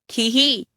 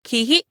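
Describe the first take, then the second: First: खी ही with drawn-out ee vowels; long ee. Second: KHI-HI with short, quick vowels. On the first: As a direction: hold the ee in खी ही, especially the last. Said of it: "बड़ी ई की मात्रा लगाएंगे". (बड़ी ई की मात्रा, दीर्घ उच्चारण) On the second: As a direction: say खी ही briefly, both vowels cut short. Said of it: "छोटी ई की मात्रा लगाएंगे". (छोटी इ की मात्रा, ह्रस्व उच्चारण) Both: Shown as a demonstration.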